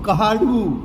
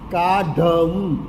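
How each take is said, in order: First: An h sound follows the first syllable. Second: There is no h sound after the first syllable. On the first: This is the North Gujarat Patni dialect form. "હ ઉમેરાયો અને ડ થડકારવાળો ઉમેરાયો" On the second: This is the standard form. "કાઢવું નહીં"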